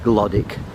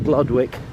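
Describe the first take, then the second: First: The name is said the local spoken way. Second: The name is said just as it is spelled. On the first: "it's pronounced Glodwick" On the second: "It's spelt Glodwick"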